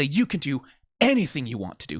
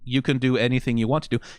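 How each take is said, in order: First: It is said with strong, forceful emphasis. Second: It is said in a flat, plain way. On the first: The speaker truly insists it is possible. "like with an emphasis" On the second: It is a simple statement. "He's not just trying to say"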